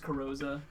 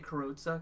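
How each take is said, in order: First: The z is said as a softer sound. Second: The z is said as a hard z sound. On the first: "but maybe it's Carrozza" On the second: "I always say Carrozza because I like that hard Z sound"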